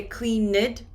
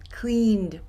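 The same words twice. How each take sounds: First: Cleaned broken into two syllables, clean-ed; wrong split cleaned. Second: Cleaned said as one syllable, ending in d. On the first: Teacher shows students the wrong two-syllable cleaned. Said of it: "Do not separate the syllables". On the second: Teacher gives students the right one-syllable cleaned. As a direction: join it into cleaned. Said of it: "Put it together". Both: Shown as a demonstration.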